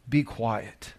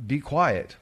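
First: Calm command. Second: Said in the usual way. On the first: Acted. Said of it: "Absolutely nothing". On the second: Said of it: "if there's an evil yelling out".

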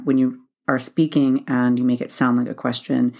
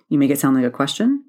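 First: Said in the usual way. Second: "question" rising like a question; upward inflection. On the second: Shown as a demonstration. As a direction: end "question" with a rising uptalk. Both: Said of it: "upward inflection at the end of a sentence".

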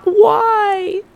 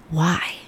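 First: "Why?" jumped very high and loud, whining; complaining why. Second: Gentle inflection. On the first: Showing the bitter way of asking why, high whining wail. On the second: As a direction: ask "Why?" gently, ready to learn. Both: Shown as a demonstration. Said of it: "Gentle inflection reframing".

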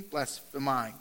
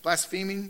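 First: Blaspheming. said again with a falling tune, settling it; Blaspheming stated flatly, decided; settled pronunciation. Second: Blaspheming? asked back with a rising tune, doubting the sound; Blaspheming echoed with a puzzled rise; questioning the pronunciation. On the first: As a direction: confirm Blaspheming, dropping at the end. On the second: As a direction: repeat Blaspheming as if checking it. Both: Shown as a demonstration. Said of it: "my grammar Nazi".

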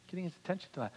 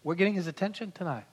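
First: Much softer repeat, "attention" falling gently; soft echo. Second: Said in the usual way. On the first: Shown as a demonstration. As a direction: echo it back quietly.

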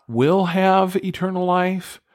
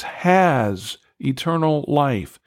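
First: "will" and "have" pitched high as the rejected version; higher contrasting take of the rejected wording; contrast wrong reading. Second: "has" slow and firm, drawn out; slow, weighty "has" before eternal life; stress on HAS. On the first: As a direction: say "will have" as the wrong option, lightly mocking. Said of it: "It's not". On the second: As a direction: plant "has" as the right, settled word. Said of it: "It is a present tense". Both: Shown as a demonstration.

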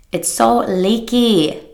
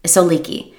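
First: "It's so leaky" stretched slow and whiny; drawn-out mock whine. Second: Said in the usual way. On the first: Shown as a demonstration. Coach repeating "It's so leaky" in a slow mock whine. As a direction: drag out "leaky" like a sulky complaint.

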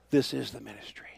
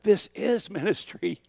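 First: Said in the usual way. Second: High, slow whisper "This is ministry". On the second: Retold or imitated. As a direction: breathe it like a voice from within. Hearing God's answer.

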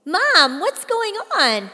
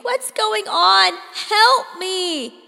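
First: Loud, much higher plea to Mom; scared teen calling to her mother; frantic call. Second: Loud, high, slow desperate plea; terrified cry for rescue; panicked pleading. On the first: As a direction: shout down the hallway for answers. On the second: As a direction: beg for help as you're hauled off. Teen being dragged down hallway. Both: A narrator's reading.

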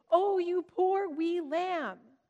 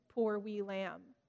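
First: Hammed-up Scottish, slow, higher and louder; thick Scottish accent. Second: Put-on a gentle Scottish lilt over a sick child; tender Scottish accent. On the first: Mother joking to her big kids in thick Scottish accent. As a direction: play up a thick Scottish brogue to make the kids laugh. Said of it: "always said it with a thick Scottish accent". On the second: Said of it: "still in a terrible Scottish accent, whispered over them".

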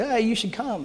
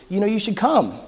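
First: Tossed-off casual invite; breezy no-pressure invitation; offhand, like a lark. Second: Said in the usual way. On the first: Shown as a demonstration. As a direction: throw it away lightly, almost a joke. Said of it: "like a lark". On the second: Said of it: "I kinda said it as like a".

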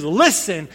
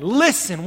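First: "Listen" said as a sharp, firm command; stern exclamation. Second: Said in the usual way. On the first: Shown as a demonstration. Preacher showing God's stern command "Listen". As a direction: bark out "Listen" like a stern teacher. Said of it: "with an exclamation point?". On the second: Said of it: "what does that sound like when God says".

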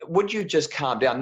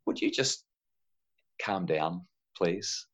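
First: Sharp. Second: Polite. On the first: Retold or imitated. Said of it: "they don't say it calm". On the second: Shown as a demonstration. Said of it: "parents don't say it politely".

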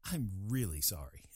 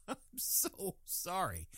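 First: Said in the usual way. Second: Slow, laughing through the words; laughing apology. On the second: Real, not acted. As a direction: apologize while cracking up.

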